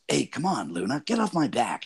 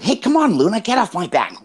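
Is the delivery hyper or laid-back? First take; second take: laid-back; hyper. First: It is said in a laid-back, cool way. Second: It is said in a hyper, high-energy way. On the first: "more kind of laid back and cool" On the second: "I'm kind of very hyper"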